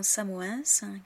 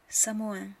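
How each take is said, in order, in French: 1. La consonne finale est prononcée. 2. La consonne finale est muette. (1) "Beaucoup de Français se trompent et prononcent ces noms de villes de travers" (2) "le S ou le X ou le Z final ne sont pas prononcés"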